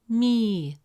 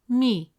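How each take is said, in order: First: The vowel is long and drawn out. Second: The vowel is short and clipped. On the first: "With a long vowel ya, it becomes me, resulting in a long e sound" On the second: "With a short kasra vowel"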